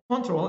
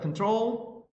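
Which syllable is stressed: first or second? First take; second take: first; second. First: The stress is on the first syllable. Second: The stress is on the second syllable. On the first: It is a noun. "Control is a noun" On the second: It is a verb. "where the syllable is put in the uh, second syllable, it is a verb"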